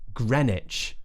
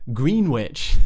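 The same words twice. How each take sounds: First: It is said in a reduced form. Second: Every letter is sounded, as spelled. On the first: The speaker calls it right. "but it's actually Greenwich" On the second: The speaker calls it wrong. "which looks like Greenwich"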